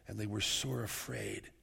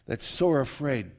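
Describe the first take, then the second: First: Said in the usual way. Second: Sore leaned on, louder and slow; stress on sore. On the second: Shown as a demonstration. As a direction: press hard on the word sore, slowly.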